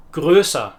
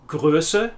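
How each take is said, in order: First: "größer" ending in an open "ah", falling. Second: "Größe" ending on a short "uh", rising. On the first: Teacher contrasting German endings, open -er ending. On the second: Teacher contrasting German endings, short final e. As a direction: finish "Größe" with a light e. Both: Shown as a demonstration. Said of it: "to distinguish between".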